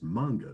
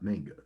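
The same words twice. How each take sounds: First: The first syllable does not sound like 'manganese'. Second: The first syllable sounds like the start of 'manganese'. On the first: The speaker calls it right. "I always thought the word was pronounced manga" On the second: The speaker calls it wrong. "every time you say that, the first thing I think of is manganese"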